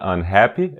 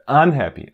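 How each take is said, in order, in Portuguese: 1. A tônica está na segunda sílaba. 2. A tônica está na primeira sílaba. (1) "Não é unhappy" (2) "essa parte un que é pronunciada mais forte"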